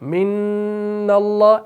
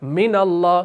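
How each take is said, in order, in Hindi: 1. नून की आवाज़ को रोका और खींचा जाता है। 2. नून की आवाज़ छोटी रखी जाती है। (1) "इस नून पर थोड़ा सा रुकते हैं, इसको खींचते हैं" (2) "हम क्या पढ़ते हैं"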